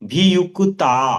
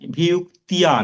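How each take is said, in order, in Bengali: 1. শেষ সিলেবল সাধারণ 'ta'। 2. শেষ সিলেবল 'tya', 'y' এর টান সহ। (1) "স্বাভাবিকভাবেই ভিয়ুক্তা" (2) "ভিয়ুক্তিয়া নয়"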